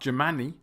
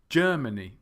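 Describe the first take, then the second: First: The stress is on a later syllable. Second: The stress is on the first syllable. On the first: The speaker calls it wrong. "It's not" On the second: The speaker calls it right. "the syllable stress is on the first syllable"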